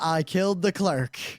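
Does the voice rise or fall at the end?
fall. It is said as a flat statement, falling.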